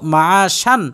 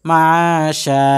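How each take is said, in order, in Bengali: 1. শব্দটি ন-এর আওয়াজে শেষ হয়। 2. শব্দটি লম্বা আ-স্বরে শেষ হয়। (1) "মূলত হয়তো মাশান" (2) "আপনি ওয়াকফ করছেন এর জন্য হবে মাশা"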